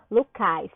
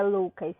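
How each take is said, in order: First: Lucais with stress shifted onto cais; stress on final syllable. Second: Lucas with the usual stress on Lu; stress on first syllable. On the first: Teacher giving the changed name, stress on cais in Lucais. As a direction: land slowly and firmly on the cais of Lucais. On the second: Teacher rejecting the original form, stress on Lu in Lucas. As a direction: say Lucas with a strong Lu and weak ending. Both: Shown as a demonstration. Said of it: "eu colocaria a sílaba tônica no cais".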